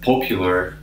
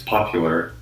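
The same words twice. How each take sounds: First: The first vowel is a rounded British 'o'. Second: The first vowel is an open American 'ah'. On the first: The speaker calls it wrong. "He said popular" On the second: The speaker calls it right. "and it's popular"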